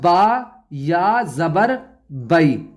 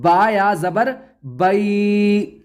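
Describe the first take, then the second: First: The vowel in 'bai' is short, not stretched. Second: The vowel in 'bai' is stretched out long. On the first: The speaker calls it right. "खींचकर नहीं पढ़ा जाएगा। अब ये पढ़ा जाएगा" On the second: The speaker calls it wrong. "इसको हम ऐसे नहीं पढ़ेंगे"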